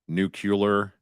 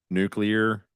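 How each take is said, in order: First: The word is pronounced sloppily, poorly enunciated. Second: The word is pronounced clearly and carefully. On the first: The speaker calls it wrong. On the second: The speaker calls it right.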